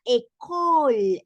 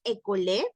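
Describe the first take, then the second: First: "école" ending on L, slowly drawn out; French "école" with silent final e; pronunciación correcta. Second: "école" as "e-co-lé", final e sounded; wrong take of "école" with stressed final e; pronunciación errónea. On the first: ("école" alargado, terminado en L) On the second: ("école" con e final fuerte) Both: Shown as a demonstration. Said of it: "no es école".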